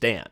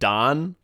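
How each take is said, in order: First: The vowel is a flat 'a' as in 'cat'. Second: The vowel is an open 'ah' sound. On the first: The speaker calls it right. "It's Dan" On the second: The speaker calls it wrong. "he doesn't pronounce his name like Don, Don, like like with a hard A"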